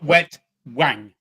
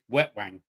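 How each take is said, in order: First: It is said as two separate words. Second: It is said run together as one word. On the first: The speaker calls it wrong. "it's not Wet Wang" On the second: The speaker calls it right. "All one word"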